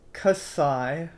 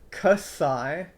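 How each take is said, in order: Both takes have the same delivery.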